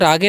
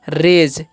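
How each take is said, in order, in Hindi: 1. g कठोर है, जैसे go में। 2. g कोमल है, j की तरह। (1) "रागे नहीं पढ़ेंगे" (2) "जी का जो उच्चारण है यहाँ पर ज होगा"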